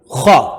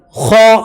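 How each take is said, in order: First: Said in the usual way. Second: "خاء" as a long khaa, pitched higher; long vowel. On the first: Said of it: "خاء أبفلي". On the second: Shown as a demonstration. Teacher spelling for students, long "خاء". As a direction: hold the aa of "خاء". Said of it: "مد ألف".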